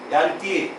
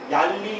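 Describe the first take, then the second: First: The r sound has a d-like quality mixed in. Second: The r sound is a plain l without d. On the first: "몽골 사람들이 발음하는 것에 가장 가깝게 최대한 노력해서 발음을 해보겠습니다" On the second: "디귿 발음을 빼고 그냥 해볼게요"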